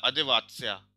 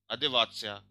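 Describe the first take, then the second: First: अदेवात्स्या with the ending त्स्या said as a clear "tsa"; अदेवात्स्या: ending त्स्या sounds like "tsa", not "t-sya"; careful pronunciation demo. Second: अदेवात्स्या again, the त्स्या ending as a clear "tsa"; अदेवात्स्या: ending त्स्या sounds like "tsa", not "t-sya"; repeated pronunciation demo. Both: Shown as a demonstration. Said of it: "इसका pronunciation स की तरह हो जाता है ना".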